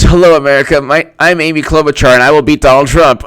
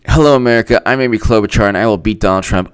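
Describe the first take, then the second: First: Loud, high mock victory speech; hammed-up rally declaration; Amy Klobuchar. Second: Understated mock speech read; lightly voiced candidate parody; Amy Klobuchar. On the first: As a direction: proclaim it like an overeager candidate. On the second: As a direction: recite the candidate's line with little push. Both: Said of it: "I'm gonna read Amy Klobuchar's victory speech".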